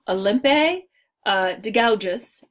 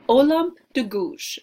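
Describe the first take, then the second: First: The name is read out as English spelling suggests. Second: The name is said with French pronunciation. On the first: The speaker calls it wrong. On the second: The speaker calls it right.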